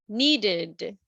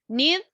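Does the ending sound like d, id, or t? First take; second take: id; t. First: The ending is an extra id syllable. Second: The ending is a short t sound.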